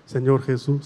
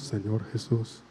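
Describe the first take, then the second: First: Said in the usual way. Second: Much lower and softer Señor Jesús; whisper-soft response; hushed echo. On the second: Shown as a demonstration. Priest repeats the line as the girl's quiet answer. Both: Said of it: "Otra vez, vamos".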